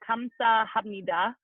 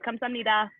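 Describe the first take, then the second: First: It is said slowly. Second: It is said faster.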